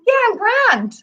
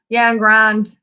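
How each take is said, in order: First: It is said in a content, easy tone. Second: It is said in an unhappy, strained tone. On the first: The speaker is actually fine. "okay, you're okay" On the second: The speaker is really not fine. "I'm really not okay"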